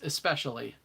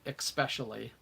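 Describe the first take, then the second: First: The word begins with an 'es' sound. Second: The word begins with an 'ex' sound. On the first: The speaker calls it right. "When I try and um, over enunciate" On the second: The speaker calls it wrong. "all of my life I've said especially"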